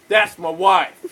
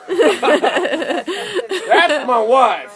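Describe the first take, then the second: First: Said in the usual way. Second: High, loud and very drawn out, with a laugh; mock indignant husband. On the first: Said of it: "he's like".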